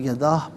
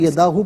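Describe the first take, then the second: First: The word ends on a bare 'h' sound. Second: The word ends with a long 'oo' vowel. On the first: The reader stops at this word. "वफ़ की सूरत में यदाह पढ़ा जाएगा" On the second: The reading continues without stopping. "इसे यदाहू पढ़ेंगे"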